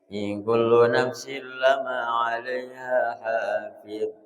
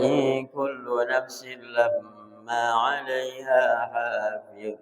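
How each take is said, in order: First: The m in lamma is short and single. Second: The m in lamma is long and doubled. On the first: "boleh dibaca tidak pakai tasdid" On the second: "boleh dibaca pakai tasdid"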